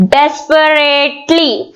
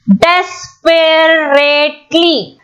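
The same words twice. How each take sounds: First: "desperately" slowly, with its four syllables run together; joined-up syllables. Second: "desperately" very slowly as des-pe-rate-ly; split into syllables. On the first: Teacher repeating the split word, "desperately" slow but joined. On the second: Teacher counting four syllables, "desperately" broken up slowly. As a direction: say "desperately" in four separated beats. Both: Shown as a demonstration. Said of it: "four syllables".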